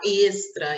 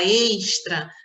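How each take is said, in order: First: The s before t sounds like plain s. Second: The s before t sounds like sh. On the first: This is how people from São Paulo say it. "eles falam lá extra" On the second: This is how people from Rio say it. "Assim como a gente fala extra"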